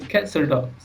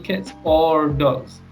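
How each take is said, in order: First: The s of cats runs into or. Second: The words cats and or are said separately. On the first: The speaker calls it right. "We say cats or dogs" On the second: The speaker calls it wrong. "we don't say cats or dogs"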